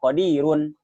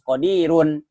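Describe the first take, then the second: The two takes are said the same way.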